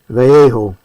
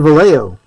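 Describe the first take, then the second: First: The name is said with Spanish pronunciation. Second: The name is said with English pronunciation. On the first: This is the technically correct form. "technically that word is Vallejo" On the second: This is how most Americans say it. "most people in the United States, they look at it and they just say Vallejo"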